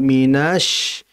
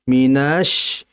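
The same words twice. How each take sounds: First: The vowel before sh is drawn out. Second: The vowel before sh is drawn out.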